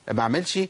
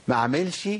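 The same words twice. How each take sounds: No difference in how they are said.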